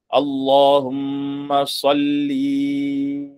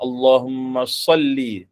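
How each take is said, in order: First: The final vowel of salli is lengthened. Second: The final vowel of salli is kept short. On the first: The speaker calls it wrong. "menambah pada perkataan salli ... ini adalah perkataan yang salah" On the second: The speaker calls it right. "dia kena sebut dengan Allahumma salli"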